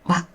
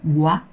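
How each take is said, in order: First: The lips stay relaxed, not pushed out. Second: The lips are pushed out and rounded. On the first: The speaker calls it right. "but wa, you don't pout" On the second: The speaker calls it wrong. "So it's not wa"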